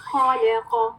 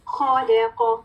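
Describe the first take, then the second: No difference in how they are said.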